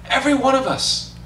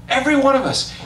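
The two takes are said the same way.

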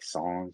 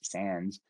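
First: It is said with a French pronunciation. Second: It is said with an American English pronunciation. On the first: "I think in French it's like sans or something" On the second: "we say that in American English"

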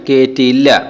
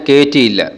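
The two takes are said the same way.

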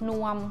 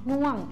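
First: The syllable is said on a level mid tone. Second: The syllable is said with a falling tone. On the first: "สามัญตรงกันเสียงสามัญรูปสามัญ" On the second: "รูปเอกแต่เสียงโท"

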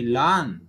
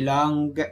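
First: The word ends in ng with no hard g. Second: A separate hard g is heard at the end. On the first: The speaker calls it right. "but I say long" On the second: The speaker calls it wrong. "I didn't say long"

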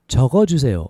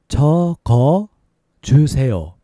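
First: It is said at a faster pace. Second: It is said at a slower pace.

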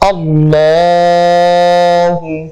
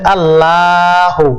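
First: The L sound is thick and heavy. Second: The L sound is thin and light. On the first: The speaker calls it right. "লামটা মোটা করতে হবে, লামপুর করতে হবে।" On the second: The speaker calls it wrong. "যদি কেউ বলে আল্লাহ, তাহলে কিন্তু হবে না"

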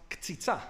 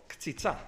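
Both takes have the same delivery.

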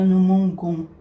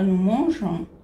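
First: The middle consonant is a hard g sound. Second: The middle consonant is a soft j sound. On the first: The speaker calls it wrong. "A gente não fala no mongon" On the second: The speaker calls it right. "a gente fala no monjon"

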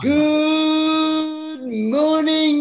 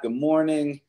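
First: It is said with high energy. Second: It is said with low energy.

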